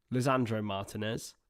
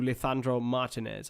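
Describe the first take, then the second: First: Said in the usual way. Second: Lisandro Martinez with a Spanish lisp, "Lithandro"; Spanish pronunciation. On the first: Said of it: "I don't know why I went Spanish". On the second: Real, not acted. Commentator slipping into Spanish for the player's name, Spanish pronunciation. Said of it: "I went Spanish for him".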